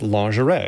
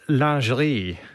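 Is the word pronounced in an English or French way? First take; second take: English; French. First: It is said with a common English pronunciation. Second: It is said with a French-style pronunciation. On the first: "Most people pronounce it lingerie" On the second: "They would say it something like lingerie"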